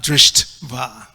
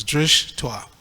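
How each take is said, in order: First: "drishtva" split as drisht, va; wrong syllable break. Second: "drishtwa" as two syllables, drish and twa. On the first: Showing the mistake to avoid, "drishtva" broken as drisht-va. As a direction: say "drishtva" slowly as DRISHT, pause, VA. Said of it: "not, not drishtva". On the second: Explaining the two syllables, "drishtwa" as drish-twa. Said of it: "it's actually two syllables". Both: Shown as a demonstration.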